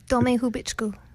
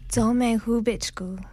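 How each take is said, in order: First: It is said at normal speed. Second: It is said slowly.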